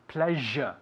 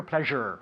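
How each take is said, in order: First: "Pleasure" with British non-rhotic ending, no R; British pronunciation. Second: American "pleasure" with a sounded final R; American accent. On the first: Teacher models the word for pupil, British "Pleasure" without final R. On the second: Teacher contrasts the variants, American accent on "pleasure". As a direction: say "pleasure" the American way, R-coloured ending. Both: Shown as a demonstration. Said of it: "Or in America".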